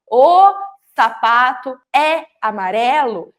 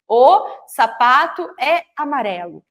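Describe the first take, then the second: First: "O" punched loud, then "sapato é amarelo" slowly with a gap after "O"; words set apart. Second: Slow, even read. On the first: Teacher spacing the words of "O sapato é amarelo" so children count them, slow and separated. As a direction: separate each word with a breath, starting with a loud "O". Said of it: "Então, olha". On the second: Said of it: "quantas palavras tem dentro da frase". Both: Shown as a demonstration.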